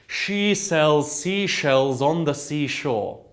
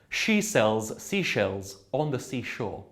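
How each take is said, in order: First: The phrase flows as one unbroken line. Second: The phrase is broken into separate chunks. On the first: The speaker calls it right. "that through line going all the way from the beginning to the end" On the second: The speaker calls it wrong. "rather than breaking it like that"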